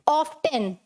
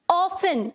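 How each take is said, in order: First: Often said as OFF-ten, T sounded; often in two parts, off-TEN with a clear T; often with T pronounced. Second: Often said as OFF-un, no T sound; often pronounced without its T; often with silent T. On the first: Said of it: "कुछ लोग इसे कैसे बोलते हैं". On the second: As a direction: say often like "awfun", the T left silent. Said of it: "silent". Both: Shown as a demonstration.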